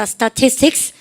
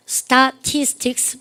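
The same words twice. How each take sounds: First: Said in the usual way. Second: STATISTICS very slow, a gap after each syllable. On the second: Shown as a demonstration. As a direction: dictate "statistics" piece by piece. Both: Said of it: "발음 갖다 서 statistics".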